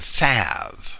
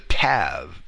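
First: The word begins with a TH sound. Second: The word begins with a plain T sound. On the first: "becomes a Thav" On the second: "The letter T, likewise, can be pronounced as a TH"

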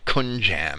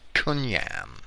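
First: The middle consonant is a J sound. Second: The middle consonant is a Y sound. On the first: The speaker calls it wrong. "so it's not kunjam" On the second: The speaker calls it right. "that J is pronounced like a Y"

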